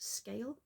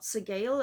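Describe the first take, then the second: First: The name is said as one syllable. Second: The name is said with two syllables. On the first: The speaker calls it right. "it's pronounced Scale" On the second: The speaker calls it wrong. "not Segale, as I was"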